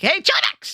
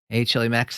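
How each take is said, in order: First: The greeting is said excitedly, with high energy. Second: The greeting is said flat, with low energy. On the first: This is how the speaker really greets, even on bad days. "I'm like, ... that puppy energy" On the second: This is a greeting the speaker does not give. "I don't say like"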